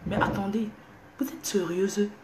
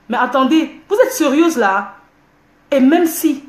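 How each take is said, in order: First: Hushed whisper, much softer. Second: Loud, raised, pitch up; indignant outburst. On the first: (chuchoté, à voix basse) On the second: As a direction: fire it back at them indignantly. (éclat indigné, plus fort) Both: Real, not acted. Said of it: "je parle doucement".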